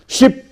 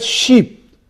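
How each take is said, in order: First: "Sheep" cut to a short i, as in ship; short I vowel. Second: "sheep" with a long, tense ee; long E vowel. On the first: Teacher contrasting the short sound, "Sheep" said as ship. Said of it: "the sound E". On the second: Teacher showing students the vowel E, long ee in "sheep". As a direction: hold the ee in "sheep". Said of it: "The vowel E". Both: Shown as a demonstration.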